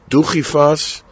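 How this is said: It is said with an Ashkenazi Hebrew pronunciation. The speaker calls it wrong.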